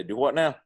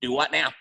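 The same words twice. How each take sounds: First: Put-on mild Carolina accent, slightly higher; Southern phrase. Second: A mock Brooklyn accent, pitched higher and louder; hammed-up imitation of a Brooklyn accent. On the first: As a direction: toss it off as a Carolina local would. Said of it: "heard me one time say". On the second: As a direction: say it like a Brooklyn native teasing a friend. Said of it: "he'll do it in his Brooklyn accent".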